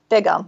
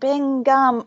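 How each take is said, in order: First: The name has no n sound before the g. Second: The name has an n sound before the g. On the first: The speaker calls it right. "there's no N" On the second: The speaker calls it wrong. "could not pronounce the name"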